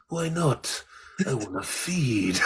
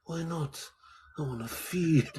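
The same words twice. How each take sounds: First: Slow, laughing Jake quote; Jake's line. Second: A hint of swagger, laughing; swaggering Jake. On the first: Retold or imitated. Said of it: "And he says". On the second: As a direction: toss off the line with mild swagger. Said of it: "he's got this swagger".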